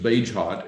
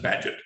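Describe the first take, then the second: First: The name is said the way it is spelled. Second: The name is said the way English people say it. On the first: "what you might think of as" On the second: "they pronounce it"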